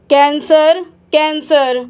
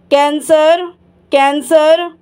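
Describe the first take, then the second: No difference in how they are said.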